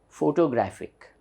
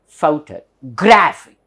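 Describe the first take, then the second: First: The main stress is not on 'graph'. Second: The main stress falls on 'graph'. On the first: The speaker calls it wrong. "Generally, we say photographic" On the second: The speaker calls it right. "there's a lower stress here... there's an upper stress here. So this becomes graphic"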